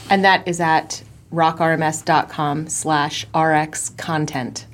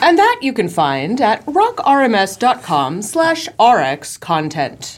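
First: It is said in a plain everyday voice. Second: It is said in a showy, announcer-like voice.

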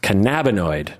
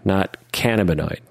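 First: The start does not follow the word cannabis. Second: The start follows the word cannabis. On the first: The speaker calls it right. "apparently it's pronounced cannabinoid" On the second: The speaker calls it wrong. "I thought it would be cannabinoid... you have cannabis and then you would have cannabinoid"

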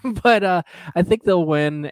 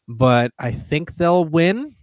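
First: The pitch falls at the end of the phrase. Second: The pitch rises at the end of the phrase. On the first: The speaker sounds sure of the prediction. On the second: The speaker sounds unsure of the prediction.

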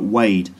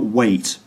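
First: The word ends in a d-like sound. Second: The word ends in a clear t sound. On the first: "but weighed" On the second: "And not weight"

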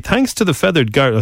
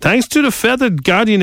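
First: It is read in the speaker's ordinary accent. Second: It is read in a put-on German accent.

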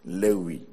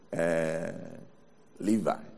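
First: The name is said the Greek way. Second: The name is said the English way. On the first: "the way the Greek pronounce it is the proper pronunciation of this name" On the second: "or if you want the English"

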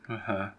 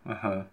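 Both takes have the same delivery.

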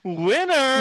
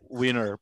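First: The word ends with a curling pitch flourish. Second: The word ends plainly with no flourish. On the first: It sounds flamboyant rather than straight. "Pag may kulot sa dulo" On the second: It is fine for a straight man to say. "Pag winner, pwede"

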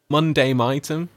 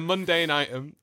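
First: The word mundane ends with an M sound. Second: The word mundane ends with a strong N sound. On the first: The speaker calls it wrong. "there does seem to be an M at the end of that mundane" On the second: The speaker calls it right. "I'm hitting that N hard"

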